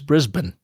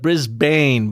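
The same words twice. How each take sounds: First: It is said with an Australian pronunciation. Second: It is said with an American pronunciation.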